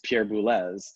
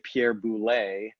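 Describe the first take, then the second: First: The name departs from regular French spelling rules. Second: The name follows regular French spelling rules. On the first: The speaker calls it right. "and it's [name]" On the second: The speaker calls it wrong. "then you would say [name]"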